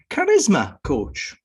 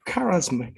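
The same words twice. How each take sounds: First: Charisma punched high and loud on the middle syllable; slow, emphatic charisma coach, hitting RIS in charisma; stress on charisma's RIS. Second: Said in the usual way. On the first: Shown as a demonstration. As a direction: draw out charisma with a strong middle beat. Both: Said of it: "I put the emphasis".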